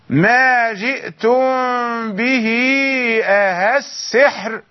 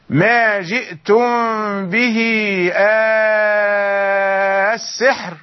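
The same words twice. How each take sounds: First: The second hamza is softened, not fully lengthened. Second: The hamza becomes a long, drawn-out vowel. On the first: "وجه التسهيل مرة أخرى" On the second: "أبو عمرو يقرأ بالمد الطويل"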